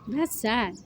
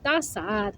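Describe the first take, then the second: First: It is said in the speaker's normal voice. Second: It is said in an imitated celebrity voice.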